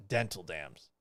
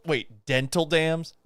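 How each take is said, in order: First: Dropped low and soft, flat statement; lower, quieter deadpan echo; deadpan repeat. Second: Rising, disbelieving question, slowed; surprised double take. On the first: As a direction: say it back with dry disbelief. Repeating item flatly after surprise. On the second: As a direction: catch the item and stop short. Reading absurd supply list aloud. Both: Real, not acted.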